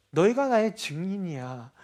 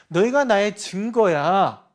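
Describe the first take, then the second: First: Said in the usual way. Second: Slow emphatic declaration. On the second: Acted. Preacher repeats with emphasis.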